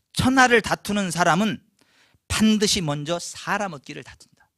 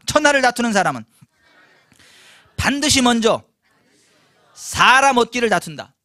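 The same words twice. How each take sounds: First: Said in the usual way. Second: Loud group recitation. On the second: Shown as a demonstration. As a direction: lead the crowd to repeat it loudly. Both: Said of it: "따라서 하십시다".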